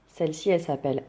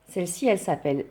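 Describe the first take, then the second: No difference in how they are said.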